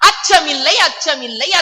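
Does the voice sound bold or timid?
bold. It is said boldly, with strong feeling. The speaker truly has no fear. The speaker calls it right. "இதை சொல்லுகிற பொழுது இந்த உணர்வோட சொல்லணும்"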